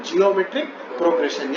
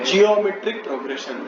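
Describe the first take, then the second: Both takes have the same delivery.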